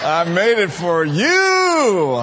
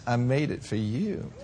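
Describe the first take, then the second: First: Slow, louder southern country drawl, laughing; drawn-out laughing southern drawl; hammed southern twang. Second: Soft, quiet southern country twang with a laugh; a quiet, shy Southern-girl twang. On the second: Retold or imitated. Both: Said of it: "with that little cute little country southern twang".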